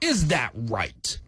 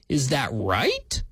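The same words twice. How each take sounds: First: It is said as an exclamation. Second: It is said as a question.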